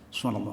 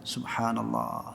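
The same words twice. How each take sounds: First: It is said very fast with sounds blurred. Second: It is said slowly with every sound clear. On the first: The speaker calls it wrong. "Cepat banget" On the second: The speaker calls it right. "Giliran tasbih juga dibaca yang sempurna"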